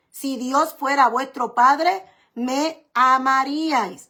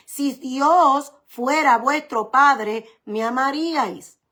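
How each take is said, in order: First: Said in the usual way. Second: Very slow, each word weighed; slow emphatic quote. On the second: Shown as a demonstration. Preacher to congregation quoting Jesus, very slow. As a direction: lay Jesus' words out slowly.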